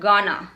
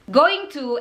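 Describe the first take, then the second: First: The words are squeezed into one short word. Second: Both words are said fully and separately.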